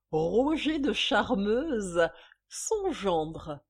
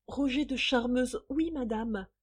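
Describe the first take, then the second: First: Slow, loud, drawn-out name; triumphant reveal. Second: A touch of hesitant shyness; timid stammer. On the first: Acted. Mistress naming who signed the cheque, triumphant. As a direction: savour each syllable of the name. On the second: A narrator's reading. Intimidated visitor answering the angry mistress, mildly stammering. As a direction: answer meekly, understated. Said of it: "balbutia la visiteuse".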